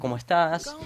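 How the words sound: It is asked as a question, rising.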